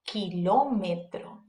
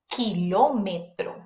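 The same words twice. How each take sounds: The two takes are said the same way.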